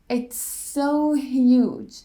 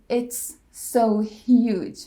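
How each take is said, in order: First: One single S sound joins the words. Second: Two separate S sounds are said. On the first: The speaker calls it right. "we connect them with a single S sound" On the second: The speaker calls it wrong. "We don't say it's so huge"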